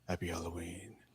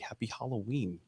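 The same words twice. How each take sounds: First: It is said imitating Cochran's voice. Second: It is said in the speaker's normal voice.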